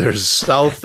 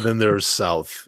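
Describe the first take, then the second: First: Said in the usual way. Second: SOUTH set apart as the deeper kind; emphatic SOUTH. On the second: Shown as a demonstration. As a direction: lean knowingly on the word SOUTH. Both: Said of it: "there's South and then there's South".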